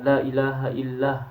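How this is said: The phrase stops before the final word is finished. The speaker calls it wrong. "tidak boleh wakaf di sana"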